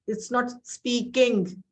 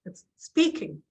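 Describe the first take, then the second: First: "speaking" drawn out slowly with the stress misplaced; slow demo of "speaking" stressed wrongly; wrong word stress. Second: "speaking" with the stress on "spea", said at normal speed; correct word stress. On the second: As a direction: say "speaking" with stress on the first syllable. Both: Shown as a demonstration. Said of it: "where you put more stress".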